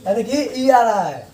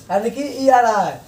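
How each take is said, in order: Both takes have the same delivery.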